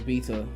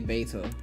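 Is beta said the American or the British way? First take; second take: British; American. First: Beta is said with a British pronunciation. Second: Beta is said with an American pronunciation. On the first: "The official British pronunciation is beta" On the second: "The Americans say beta"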